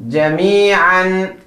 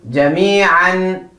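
The two takes are said the same way.

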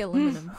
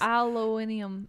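First: The word is said with four syllables. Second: The word is said with five syllables. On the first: This is the American way of saying it. "we say aluminum" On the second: This is the British way of saying it. "UK says"

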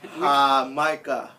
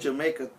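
First: It is said with a Spanish pronunciation. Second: It is said with an English pronunciation. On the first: The speaker calls it right. "it's hah-MY-kah" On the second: The speaker calls it wrong. "So it's not fucking Jamaica"

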